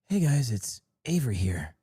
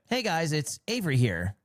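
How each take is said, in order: First: It is said in an imitated, put-on voice. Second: It is said in a natural, unaffected voice. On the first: "a Sykkuno voice would be like" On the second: "this is more like a"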